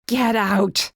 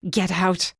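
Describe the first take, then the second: First: A loud bellow, voice thrown high and hard; now let it all out at her. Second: Through gritted teeth. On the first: Acted. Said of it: "I bellowed this time". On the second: A narrator's reading. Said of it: "I uttered through my teeth".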